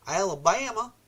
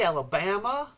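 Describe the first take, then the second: First: Put-on a quick tongue-in-cheek stab at an Alabama accent; mock Alabama accent. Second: Said in the usual way. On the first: Repeating a viewer's state in a playful mock Alabama accent. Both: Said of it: "I don't even know if that's an Alabama accent".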